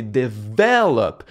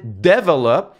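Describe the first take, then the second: First: "develop" with the second syllable VEL stressed; correct stress on develop. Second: "develop" stressed on the first syllable, DE-velop; wrong stress on develop. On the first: Creator giving the right English, second-syllable stress on "develop". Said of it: "c'est sur la deuxième syllabe". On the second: Creator replaying his old mistake, first-syllable stress on "develop". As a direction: hit the DE of "develop" and let the rest drop. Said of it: "Mais quand je disais develop". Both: Shown as a demonstration.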